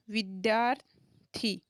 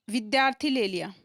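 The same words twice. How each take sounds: First: विद्यार्थी said slowly, every syllable drawn out; slowly sounding out a word for students; slow, drawn-out demo. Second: Said in the usual way. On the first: Shown as a demonstration. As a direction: stretch out विद्यार्थी so students hear each sound. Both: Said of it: "अब इस शब्द को बोल के देखो".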